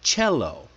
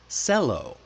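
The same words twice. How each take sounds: First: The word begins with a CH sound. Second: The word begins with an S sound. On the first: The speaker calls it right. "That's like the C H sound, like chocolate" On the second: The speaker calls it wrong. "if you read it by the rules, you might say"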